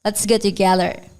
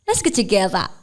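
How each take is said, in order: First: It is spoken in an American accent. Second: It is spoken in an Australian accent. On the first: "Itu Amerika" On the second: "Kalau si"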